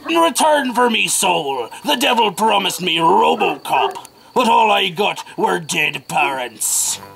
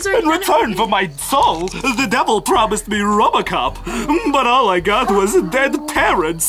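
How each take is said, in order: First: It is said in a Foxy character voice. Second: It is said in a Mangle character voice.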